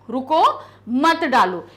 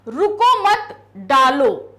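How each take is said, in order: First: The pause comes right after 'ruko'. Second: The pause comes right after 'mat'. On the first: The listener is told not to pour. "मना किया जा रहा है" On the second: The listener is told to go ahead and pour. "यहां पर कहा जा रहा है करो"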